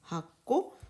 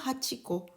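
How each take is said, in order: First: The middle syllable drops, doubling the consonant. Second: The middle syllable is said in full. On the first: The speaker calls it right. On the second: The speaker calls it wrong.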